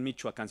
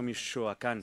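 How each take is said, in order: First: The ch sound is short and plain. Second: The ch sound is drawn out and lengthened. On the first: "No dicen Michoacán" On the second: "Las CHs las alargan"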